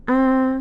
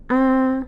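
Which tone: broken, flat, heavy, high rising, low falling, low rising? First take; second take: flat; flat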